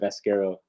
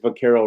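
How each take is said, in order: First: It is said with an s before the k. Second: It is said with no s before the k. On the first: The speaker calls it wrong. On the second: The speaker calls it right.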